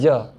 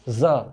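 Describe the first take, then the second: First: The consonant is a plain j without buzzing. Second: The consonant is a buzzing z with air.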